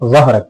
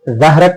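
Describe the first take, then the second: First: The first consonant is a heavy emphatic z. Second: The first consonant is a light dh sound. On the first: The speaker calls it right. "जबान की नोक दांतों के किनारे को लगाकर मोटा पढ़ेंगे" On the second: The speaker calls it wrong. "मोटा नहीं पढ़ेंगे ... जाल अदा होगा"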